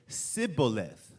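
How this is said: It begins with an 's' sound.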